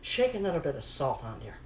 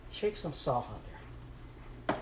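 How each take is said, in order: First: Said in the usual way. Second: Slow, breathy whisper of the same line; whispered aside. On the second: Acted. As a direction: whisper it slowly, as if to herself. Repeats salt instruction, whispered.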